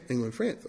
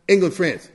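First: Much softer, lower repeat; knowing quiet echo. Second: Said in the usual way. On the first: Real, not acted. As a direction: drop it to a hushed, knowing aside.

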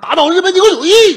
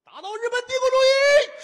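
First: Loud, higher, falling slogan cry; full-throated slogan shout. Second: Very high, strained slogan yell; 尖声高喊口号. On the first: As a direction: shout the slogan with patriotic conviction. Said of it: "您喊这个倒对了". (临死前振臂高呼口号) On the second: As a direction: scream the slogan at the top of your range. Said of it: "什么乱七八糟的？". (拔高嗓门尖声喊口号) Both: Acted.

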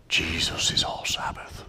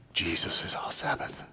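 First: Put-on theatrical pious British accent; breathy British accent, whispered piously. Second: Hushed, reverent whisper; pious whisper. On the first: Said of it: "slip into a British accent for theatrics". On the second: Pretend. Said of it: "in a very pious way".

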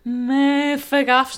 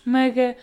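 First: "mafagafos" said very slowly, syllable by syllable, and loud; slow deliberate "mafagafos" after the stumble; careful correction. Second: "maga-" cut off mid-word, a garbled try at "mafagafos"; botched "maga-" before the proper take; stumbled attempt. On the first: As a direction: spell out "mafagafos" carefully, ma-fa-ga-fos. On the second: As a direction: trip on "maga-" and break off. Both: Shown as a demonstration. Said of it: "não sei dizer".

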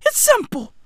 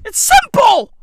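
First: Said in the usual way. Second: Punchy, raised delivery; first take louder and higher; emphatic. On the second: Shown as a demonstration. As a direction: hit it hard and high.

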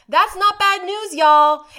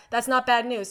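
First: "not" hit loud and high, y'all shouted out; loud redo. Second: Said in the usual way. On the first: Shown as a demonstration. Correcting "guys" to y'all, loud and high. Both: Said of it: "Sorry I said guys".

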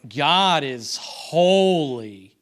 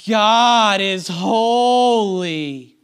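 First: Slow, drawn-out spoken mock praise; louder, heavily stretched words, insincere; sarcastic tone. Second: Loud, higher mock worship singing; sung, belt it slowly with long held vowels; stretched out, sung. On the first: Preacher illustrating tone of voice in worship, sarcastic. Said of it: "in this tone of voice". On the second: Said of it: "just stretch it out a little bit". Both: Shown as a demonstration.

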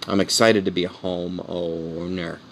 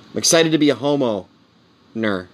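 First: Slow, lower, stretching out "homeowner"; drawn-out HOMEOWNER. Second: "homeowner" broken by a long pause before "-ner"; split HOMEOWNER. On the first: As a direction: draw "homeowner" out slowly to the end. Toys with the word homeowner. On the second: Repeats it, splitting the word. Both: Acted.

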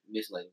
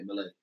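First: "Miss Lady" with the S clearly sounded; full pronunciation. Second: "Miss Lady" run together without the S; dropped S. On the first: Contrasting how Atlanta men don't say it, fully pronounced "Miss Lady". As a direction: say "Miss Lady" as two separate words, S intact. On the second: Showing how Atlanta men say it, "Miss Lady" with S dropped. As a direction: slur "Miss Lady" into one word, softly, no S. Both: Shown as a demonstration. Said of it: "we take the S off".

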